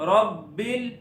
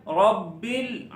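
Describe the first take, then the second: The two takes are said the same way.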